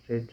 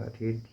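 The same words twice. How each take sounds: First: रेड with a short "e", like "red"; past-tense pronunciation. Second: रीड with a long "ee", like "reed"; present-tense pronunciation. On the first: Teacher contrasting the verb forms, रेड with short "e". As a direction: say रेड to rhyme with "bed". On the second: Teacher contrasting the verb forms, रीड with long "ee". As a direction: say रीड to rhyme with "need". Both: Shown as a demonstration. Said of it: "इस तरीका उच्चारण करते हैं हम इसका".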